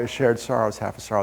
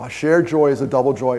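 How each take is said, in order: First: "A shared sorrow is half a sorrow" said softer and lower, heartfelt; softer sincere. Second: Said in the usual way. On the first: Shown as a demonstration. Speaker to crowd, softly and sincerely repeating his motto. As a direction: let "sorrow" drop softly, sincere and quieter. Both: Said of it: "printed on the back of my business cards".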